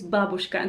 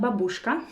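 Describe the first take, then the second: First: The stress is on the first syllable. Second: The stress is not on the first syllable. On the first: The speaker calls it right. "The correct stress is on the first syllable" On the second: The speaker calls it wrong. "it's not babushka"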